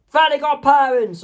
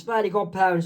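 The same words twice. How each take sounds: First: High, loud character cry; sudden high-pitched shout; Mister Crocker's yell. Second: Said in the usual way. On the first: Acted. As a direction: yell it out high like a cartoon villain. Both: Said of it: "when Mister Crocker yells".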